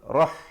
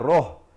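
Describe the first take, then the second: First: The vowel sounds open, like 'a'. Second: The vowel sounds rounded, like 'o'. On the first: The speaker calls it right. "bacaan yang betul rah" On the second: The speaker calls it wrong. "Jangan kita baca roh"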